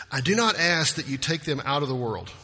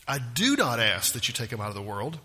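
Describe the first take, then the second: First: "do not" lifted, then falling to the end; stress on "not". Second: "do" pitched up sharply, the rest low; stress on "do". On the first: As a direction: read it out firmly, leaning on "not". Verse read, then repeated for emphasis. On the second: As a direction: repeat it with a strong lift on "do", rising at the end. Verse repeated with new emphasis. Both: Real, not acted.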